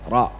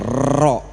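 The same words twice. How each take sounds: First: The r is trilled only about twice. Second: The r is trilled many times over. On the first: The speaker calls it right. "cukup dua kali aja" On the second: The speaker calls it wrong. "jangan ro gitu"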